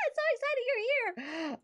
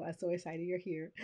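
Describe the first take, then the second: First: Very high excited squeal; squealing excitement. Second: Said in the usual way. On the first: Real, not acted. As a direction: gush over a friend who just arrived. Greeting a viewer who joined.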